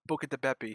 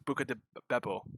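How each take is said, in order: First: The last word ends in an 'ee' sound. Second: The last word ends in an 'oh' sound. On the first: The name is deliberately mangled to tease people. The speaker calls it wrong. "I always pronounce it wrong" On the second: The name is given as it really is. The speaker calls it right. "It's Buca de Beppo"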